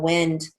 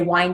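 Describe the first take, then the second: First: The vowel is a short I sound. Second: The vowel is a long I sound. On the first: It means moving air. "a short I" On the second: It means to turn or coil. "that would be a long I"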